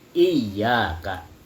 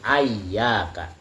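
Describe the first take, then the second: First: Doubled y, first vowel i, then a. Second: Doubled y, first vowel a, then a. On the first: This is the reading of the majority of scholars. "dengan tasydid iyyaka. Di atas huruf ya-nya ada tasydid" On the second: This is a minority variant reading. "memfathahkan huruf hamzah ya. Walaupun huruf ya-nya masih bertasydid"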